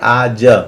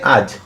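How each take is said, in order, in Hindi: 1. शब्द छोटे a स्वर पर खत्म होता है। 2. शब्द बिना स्वर की j ध्वनि पर खत्म होता है। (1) "वास्तव में इसका उच्चारण करना चाहिए आज, क्योंकि ज में भी अ है" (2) "लेकिन हम लोग उच्चारण करते हैं आज"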